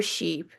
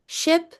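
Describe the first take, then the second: First: "sheep" with its ee held long; long vowel. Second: "Ship" said with a quick, lax i; short vowel. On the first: Teacher repeating the contrast, long ee in "sheep". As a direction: stretch the ee of "sheep". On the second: Teacher repeating the contrast, short i in "Ship". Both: Shown as a demonstration. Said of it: "The length of a vowel can change".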